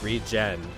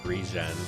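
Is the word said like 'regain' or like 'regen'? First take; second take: regen; regen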